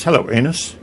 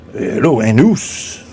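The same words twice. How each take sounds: First: Said in the usual way. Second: "anus" said "ah-NOOS", French style; mock French accent. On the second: French vagina greets the anus, "anus" in mock French accent.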